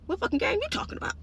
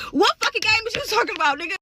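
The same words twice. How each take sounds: First: High, quick, baffled mock question; incredulous. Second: High, loud, baffled mock outburst; louder high-pitched incredulous retort. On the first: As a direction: squeak it out fast in mock disbelief. Acted baffled reply to boss. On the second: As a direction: throw the question back loudly in disbelief. Same reply repeated after laughing.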